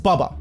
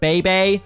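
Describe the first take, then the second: First: The name is said with two short u sounds. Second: The name is said like the word baby. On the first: The speaker calls it right. "it's Bubba, not Baby" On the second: The speaker calls it wrong. "he would be like"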